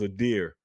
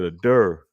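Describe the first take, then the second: First: The word is said with a 'deer' vowel. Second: The word is said with a 'dur' vowel. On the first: This is the word that was meant. "it was a deer" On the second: This is how another person pronounced it. "that's how they were pronouncing it"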